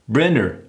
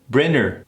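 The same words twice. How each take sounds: Both takes have the same delivery.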